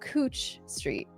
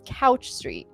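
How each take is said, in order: First: The vowel sounds like the word coo. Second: The vowel sounds like the word cow. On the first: The speaker is a local. The speaker calls it right. "but it's Cooch Street" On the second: The speaker is not from the area. The speaker calls it wrong. "it looks like it says Couch Street"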